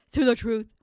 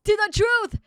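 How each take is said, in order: First: Said in the usual way. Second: Loud heroic toast; rallying shout. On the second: Acted. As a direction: call it out high and proud. Voicing game character toast.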